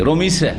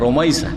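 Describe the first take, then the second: First: The name's middle vowel is a plain 'i'. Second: The name's middle vowel is an 'ai' glide. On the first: The speaker calls it wrong. "অনেক নামকে এরকমই বিকৃত করে" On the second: The speaker calls it right. "রমিসা না রমাইসা"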